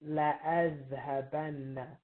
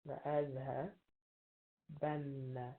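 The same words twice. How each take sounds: First: La azhabanna stretched slowly, laa, then a doubled nn in azhabanna; slow, careful teacher modelling; slow model pronunciation. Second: "La azhabanna" said again more softly, slow, the nn held; quiet teacher echo; soft slow repeat. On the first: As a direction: drag out "la azhabanna" so the doubled n is heard. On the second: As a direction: repeat it quietly and slowly for students. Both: Shown as a demonstration. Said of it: "add this lam and the noon".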